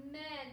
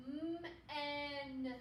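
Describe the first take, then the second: First: Said in the usual way. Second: "M-en" with a long hummed M sliding into a stretched "en"; sounded out slowly. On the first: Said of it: "until it sounds smooth". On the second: Shown as a demonstration. Teacher reading the word for pupils, sounded out slowly. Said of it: "let's read the word now".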